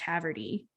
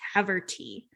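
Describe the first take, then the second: First: The t is softened and not enunciated. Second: The t is pronounced clearly and crisply. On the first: This is how people usually end up saying it. "because of how we speak, it would be pronounced" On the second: This is the intended pronunciation of the name. "it's probably supposed to be pronounced"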